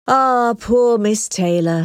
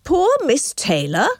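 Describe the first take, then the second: First: Slow, mournful sigh; an old father's gentle lament. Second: Higher, rising, amused disbelief; a friend scoffing at the lament; incredulous cry. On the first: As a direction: let the sadness drag each word of "Ah, poor Miss Taylor". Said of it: "sighed Mister Woodhouse". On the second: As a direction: toss "Poor Miss Taylor?" back in surprise. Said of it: "cried Mister Knightley". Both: A narrator's reading.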